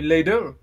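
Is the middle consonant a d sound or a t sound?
d sound. The middle consonant is a soft d sound. "et un D"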